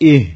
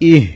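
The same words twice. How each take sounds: The two takes are said the same way.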